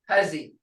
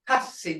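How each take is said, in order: First: The middle consonant is a buzzing z sound. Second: The middle consonant is a hissing s sound. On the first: The speaker calls it wrong. "I've had uh, people call it huzzy" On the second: The speaker calls it right. "but it's hussy, hussy. That's the right enunciation"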